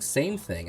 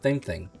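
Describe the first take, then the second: First: The words are pronounced clearly and normally. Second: The words are slurred with a thick tongue. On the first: The speaker calls it right. "instead of saying same thing" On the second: The speaker calls it wrong. "my tongue got real thick there"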